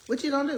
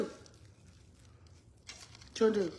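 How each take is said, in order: First: Said in the usual way. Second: Whispered, very slow "What you gonna do". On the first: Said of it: "repeats line differently". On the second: Shown as a demonstration. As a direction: drag it out in a breathy whisper. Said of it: "repeats line slow and breathy".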